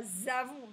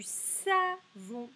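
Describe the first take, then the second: First: "zavon" with a buzzed z in place of s; wrong Z sound. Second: "savon" slowly with a hissed s at the start; correct S sound. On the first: Teacher showing what isn't said, "zavon" with z. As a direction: start "zavon" on a voiced z. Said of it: "Je dis pas zavon". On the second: Teacher checking for the Z sound, "savon" with s. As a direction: stretch "savon", keeping the s free of buzz. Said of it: "je dis sa". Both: Shown as a demonstration.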